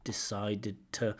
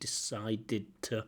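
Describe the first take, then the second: First: The words run together as connected speech. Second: The words run together as connected speech.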